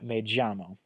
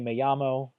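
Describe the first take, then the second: First: The 'll' sounds like an English j. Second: The 'll' sounds like an English y. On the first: "you said me llamo" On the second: "you don't say"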